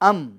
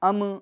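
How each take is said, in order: First: The final m is held steadily without any bounce. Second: The final m bounces with a small echoing release. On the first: The speaker calls it right. "कामिल तौर पर मीम का सुकून अदा हो, जमाओं के साथ, ठहराव के साथ" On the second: The speaker calls it wrong. "ये आवाज लौट कर नहीं आनी चाहिए"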